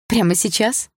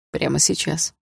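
First: "Прямо сейчас" as a higher question, lifted at the end; surprised question. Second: Calm confirmation. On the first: Heroine checks with Dima, surprised "Прямо сейчас" pitched up as a question. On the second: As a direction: confirm "Прямо сейчас" in a lowered man's voice. Dima confirms her question. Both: Acted.

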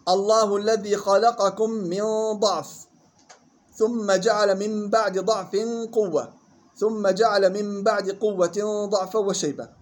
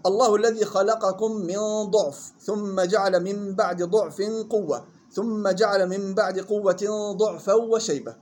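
First: Slow tajweed recitation, ضعف said "da'f"; recitation, fatha dad. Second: Slow tajweed recitation, ضعف said "du'f"; recitation, damma dad. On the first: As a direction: recite measuredly with open "da" in each ضعف. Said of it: "هاي الوجه الأول بفتح الضاد". (تلاوة ضعف بفتح الضاد) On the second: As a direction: recite measuredly with rounded "du" in each ضعف. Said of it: "الثاني ضم الضاد". (تلاوة ضعف بضم الضاد) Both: Shown as a demonstration.

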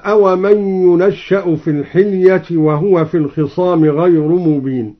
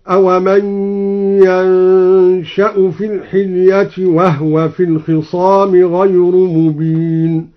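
First: Said in the usual way. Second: Slow tartil, ينشأ said "yansha'u" with a hummed n; al-Duri recitation. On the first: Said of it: "قوله تعالى". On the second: Shown as a demonstration. Teacher demonstrating the variant, ينشأ chanted slowly as "yansha'u". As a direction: chant it, fatha on the ya of ينشأ, no vowel on the noon. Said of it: "قرأ الدوري بفتح الياء وسكون النون".

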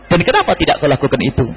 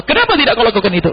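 First: Said in the usual way. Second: Raised, pointed scolding question; a touch of a scolding master; mild mock rebuke. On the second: Shown as a demonstration. Preacher voicing the rebuke the Prophet never gave.

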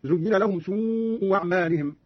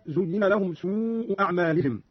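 First: سوء أعمالهم said "su'u wa'malihim", a w opening the second word; hamza as waw. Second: Said in the usual way. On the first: Shown as a demonstration. Teacher demonstrates Qalun, turning the hamza of أعمالهم into w. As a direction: start أعمالهم with w after سوء. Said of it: "بإبدال الهمزة الثانية واوا". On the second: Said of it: "قرأ قالون بإبدال الهمزة الثانية واوا".

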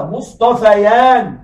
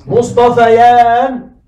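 First: Slow demo. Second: مصطفيان stretched very slowly, louder; drawn-out demo. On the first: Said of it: "ما مثنى مصطفى؟". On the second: Teacher drawing out مصطفيان for students, very slowly and louder. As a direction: spell out مصطفيان syllable by syllable. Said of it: "الألف تقلب ياء". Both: Shown as a demonstration.

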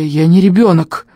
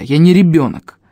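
First: Strained, louder hoarse protest; croaked protest. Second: Said in the usual way. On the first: A narrator's reading. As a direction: force out an indignant croak. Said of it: "прохрипел я".

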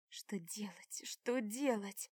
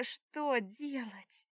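First: Slow anxious whisper of «Что делать?». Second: Slow, drawn-out voiced «что делать?» with a falling end; voiced lament. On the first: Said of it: "крутится в мозгах вопрос". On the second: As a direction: moan «что делать?» aloud, slowly and despairingly. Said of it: "О боже". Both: A narrator's reading.

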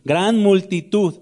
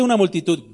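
First: "Gran multitud" slow, with weight on "Gran"; emphatic, stretched "Gran"; stress on GRAN. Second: Said in the usual way. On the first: Shown as a demonstration. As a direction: draw out "Gran" for added emphasis. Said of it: "con énfasis añadido". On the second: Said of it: "no dice una multitud".

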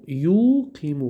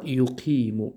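First: یقیم with a long, raised first syllable yu; یقیم very slow, leaning on the first syllable; stress on the prefix. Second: Said in the usual way. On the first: Shown as a demonstration. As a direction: draw out the opening yu of یقیم to point it out. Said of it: "خودش یو، اما خیلی یو هست".

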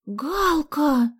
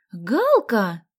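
First: High, loud appalled cry; horrified. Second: Loud, happy cry of greeting; delighted. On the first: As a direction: cry the name in dismay. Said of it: "ужаснулась Соня". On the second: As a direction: greet a long-missed friend joyfully. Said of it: "обрадовалась Соня". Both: A narrator's reading.

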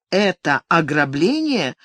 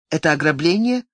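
First: Ограбление stretched and slow, insisting; insistent. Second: Said in the usual way. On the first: A narrator's reading. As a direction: repeat «ограбление» slowly and firmly. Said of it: "настойчиво повторила она, слегка повысив голос".

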